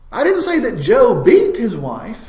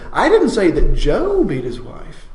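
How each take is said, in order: First: The word "beat" carries the main stress. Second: The word "Joe" carries the main stress. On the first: He did something lesser than that act. "he might have smacked her around, but he didn't really beat her" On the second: It was someone other than that man. "it wasn't Joe at all"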